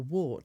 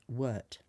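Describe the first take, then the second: First: The vowel sounds like the one in 'short'. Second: The vowel sounds like the one in 'hurt'. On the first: The speaker calls it wrong. "It's not mugwort. Warts are those horrible things" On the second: The speaker calls it right. "the wart is actually pronounced wort"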